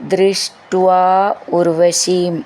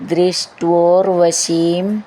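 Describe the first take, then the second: First: The two words are said separately. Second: The two words are joined into one.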